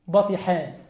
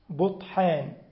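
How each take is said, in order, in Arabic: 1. تبدأ بـ 'ba'، وفيها 'i' بعد الطاء. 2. تبدأ بـ 'bu'، ولا حركة بعد الطاء. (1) "بفتح أوله باء وبكسر ثانيه" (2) "بضم الباء وسكون الطاء وفتح الحاء"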